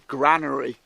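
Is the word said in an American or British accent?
British. It is said with a British accent.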